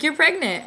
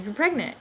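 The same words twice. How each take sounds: First: High and loud, beaming the news again; cheery repeat. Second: Said in the usual way. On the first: Retold or imitated. Nurse repeats the news to a stunned patient, high and bright. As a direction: say it brightly, like she can't wait for the reaction.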